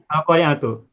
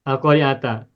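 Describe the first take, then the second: First: The word ends with a final 'u' vowel. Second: The word ends with a final 'a' vowel. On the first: The word is the subject of the sentence. "ujungnya diberi harokat dhammah" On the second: The word is the object of an implied verb. "al-qari'ata fathah karena maf'ul bihi"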